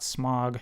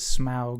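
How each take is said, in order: First: The vowel sounds like the one in fog. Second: The vowel sounds like the one in cow. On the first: The speaker calls it wrong. "not Smog" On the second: The speaker calls it right. "that's how it's supposed to be pronounced"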